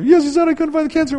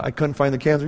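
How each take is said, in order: First: Very high mock-tearful wife voice. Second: Said in the usual way. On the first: Wife echoes husband's guess in amazement, high mock-crying voice. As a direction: imitate her overwhelmed, pitched way up high. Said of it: "and she starts crying".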